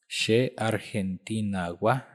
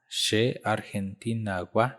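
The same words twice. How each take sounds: The two takes are said the same way.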